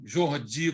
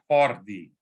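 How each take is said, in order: First: The name is said with a Brazilian pronunciation. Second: The name is said with a Barcelona pronunciation. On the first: This is how many people commonly say it. The speaker calls it wrong. "e não Jordi, como muita gente fala. Jordi seria se ele tivesse nascido em Fortaleza" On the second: This matches where the person was born. The speaker calls it right. "como ele nasceu em Barcelona, aí é, é Horde, Horde mesmo"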